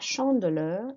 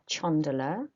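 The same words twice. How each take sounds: First: The word begins with an 'sh' sound. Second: The word begins with a 'ch' sound. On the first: The speaker calls it right. "a sh sound" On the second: The speaker calls it wrong. "not a ch sound"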